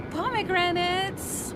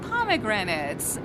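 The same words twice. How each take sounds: First: Savoring. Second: Plain. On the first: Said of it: "Mm, pomegranates". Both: Shown as a demonstration.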